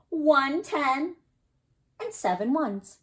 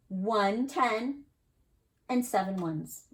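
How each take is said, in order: First: "One ten" lifted higher and louder, "and seven ones" settling back down; tens-and-ones reading. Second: Said in the usual way. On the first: Shown as a demonstration. Teacher modelling the reading for the class, "One ten" raised and louder. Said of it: "You could also read it like this". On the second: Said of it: "Can you read it with me?".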